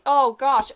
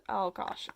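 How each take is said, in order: First: Higher, louder cringing "Oh, gosh"; horrified. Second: Said in the usual way. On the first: Real, not acted. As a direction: recoil as you say "Oh, gosh". Horrified at kiss scene.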